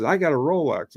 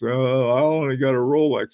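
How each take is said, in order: First: Said in the usual way. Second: Mildly sheepish, leaning on "only"; sheepish, apologetic. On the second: Retold or imitated. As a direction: imitate a guy a little embarrassed by his watch. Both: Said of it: "That's how he said it".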